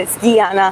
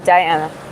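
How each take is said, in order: First: The name has a Russian and Georgian pronunciation. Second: The name has an English pronunciation. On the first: "in Russian and Georgian, it's Diana" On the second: "In uh, English, I prefer Diana"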